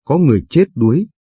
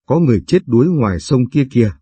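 First: Higher and faster, panicked cry for help; the peak of the alarm, rushed and pitched up; frantic shout. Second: Repeated cry, settling a little, falling at the end; mild alarmed call. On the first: (hét hoảng hốt, giọng cao và nhanh) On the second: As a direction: point toward the river while calling, less strained. (gọi báo tin, hơi to, hạ giọng cuối câu) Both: Acted. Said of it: "Chị gào lên".

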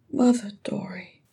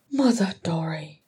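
First: High, breathy whisper. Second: Understated bitterness, partly breathed; bitter. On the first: Ori naming the brother who raised him, whispered. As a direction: whisper it tenderly, falling away. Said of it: "whispered Ori". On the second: Nori naming the brother who raised him, bitter. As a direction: mutter it with a bitter edge. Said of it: "said Nori bitterly". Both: A narrator's reading.

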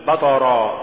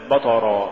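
First: بطرا with a light, thin B before the heavy T; correct recitation. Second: بطرا with the B wrongly made heavy, pitched lower; mispronunciation demo. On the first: Tajweed teacher giving the form to say, correct recitation. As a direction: keep the first letter of بطرا light. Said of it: "قل". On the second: Tajweed teacher showing what not to say, mispronunciation demo. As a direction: thicken the first letter of بطرا. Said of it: "ولا تقل". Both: Shown as a demonstration.

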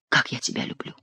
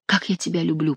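First: Soft low whisper of love; hushed, intimate declaration. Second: Softly voiced, understated whisper of love; gentle murmured declaration. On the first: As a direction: breathe it out tenderly, barely voiced. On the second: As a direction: repeat it tenderly, a little hushed. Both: A narrator's reading. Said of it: "прошептал Бюсси".

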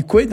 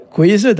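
First: "kwed" said short, the Z dropped entirely; "kwed" as one clipped syllable with no middle Z; local pronunciation. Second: "kwezed" with the Z sounded; "kwezed" said in full, the Z in the middle clearly voiced; written form. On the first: Teacher shows how locals say "kwed", Z dropped. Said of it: "Nous, on dit kwed". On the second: Teacher gives the textbook form "kwezed", Z sounded. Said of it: "le participe passé, c'est kwe". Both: Shown as a demonstration.

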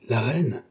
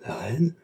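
First: Mild exclamation of surprise on "La reine", falling at the end; understated, sincere astonishment, "reine" dropping; "La reine" as a genuine-sounding, falling exclamation; convincing surprise. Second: "La reine" with "reine" rising at the end; lifted, incredulous-question tune on "reine"; questioning echo. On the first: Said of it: "S'écria Louis de Rohan avec une vérité d'intonation". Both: A narrator's reading.

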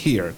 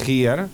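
First: "here" opened with a strong breathy h, like a little cough; aspirated h. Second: "here" with a silent h, starting straight on the vowel; "here" said without any breath at the start; wrong pronunciation. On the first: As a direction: push air out on the h of "here". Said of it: "como si tuviéramos un golpe de tos". ("here" con la h aspirada, como un golpe de tos) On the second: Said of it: "No vamos a decir". ("here" sin aspirar la h) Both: Shown as a demonstration.

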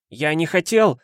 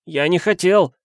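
First: Mild cry. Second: Higher, louder desperate repeat; frantic insistence. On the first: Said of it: "кричал Протасенко". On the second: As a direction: insist madly, pleading. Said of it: "с безумной настойчивостью повторял". (безумно настойчиво) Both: A narrator's reading.

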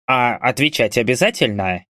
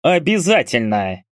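First: "обязательно" asked as an easy question. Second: "Обязательно" pressed firmly, pitched up then falling; insistent. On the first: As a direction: ask mildly whether it is "обязательно". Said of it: "спросил упырь". («обязательно» с лёгкой вопросительной интонацией) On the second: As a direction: lean hard on "Обязательно", no room for argument. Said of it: "надавил Кнауф". («Обязательно» с нажимом, тоном выше) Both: A narrator's reading.

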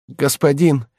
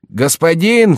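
First: Оклик. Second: Громче и выше, встревоженный зов; тормоши и зови погромче; громкий оклик. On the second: (громкий встревоженный зов слуги) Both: Acted. Слуга будит хозяина.

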